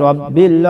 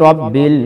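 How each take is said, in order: The two takes are said the same way.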